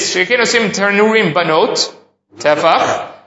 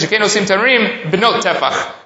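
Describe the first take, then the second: First: There is a break before the last word. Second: The phrase runs on without a break. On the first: The ovens are made for the girls and measure one handbreadth. "these are the tanurim of the children" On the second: The ovens are one handbreadth in size. "They make tanurim that are the size of a tefach"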